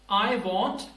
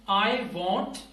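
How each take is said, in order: The two takes are said the same way.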